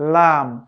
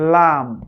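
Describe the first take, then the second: The two takes are said the same way.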